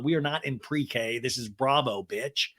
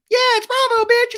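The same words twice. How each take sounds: First: Said in the usual way. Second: Very high, loud squeaky cartoon voice; hammed-up tiny Lala squeal; little Lala voice. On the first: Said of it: "Lala says later on". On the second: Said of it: "It's me, little Lala".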